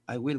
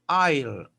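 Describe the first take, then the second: First: It is said as two separate full words. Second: It is said as one contracted syllable. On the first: "es correcto" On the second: "los americanos les gusta bastante contraer"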